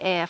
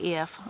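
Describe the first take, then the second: First: The vowel is an open 'eh' sound. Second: The vowel is a short 'ih' sound. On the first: "F like E F" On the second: "instead of I F"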